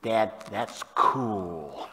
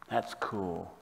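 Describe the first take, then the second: First: Lightly voiced teen, drawing the words right out; hint of an impressed kid, very slow; impressed teenager. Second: Soft and low, quietly amazed; hushed awe. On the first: Father mimicking his teenage kids, lightly drawn-out awe. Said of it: "When they were teenagers, they would say". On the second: Acted. Psalmist marvelling to Heavenly Father, hushed awe. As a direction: let the praise fall to a reverent hush.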